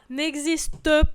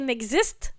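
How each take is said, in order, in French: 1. Le E final se prononce, trois syllabes. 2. Le E final est muet, deux syllabes. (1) "on prononce le E parce qu'on compte les syllabes" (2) "c'est muet"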